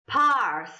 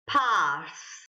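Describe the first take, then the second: First: The R sound is rolled. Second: The R sound is silent. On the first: "trying to roll my R" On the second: "it didn't pick up my R. Uh, that's because it's, it's a silent R"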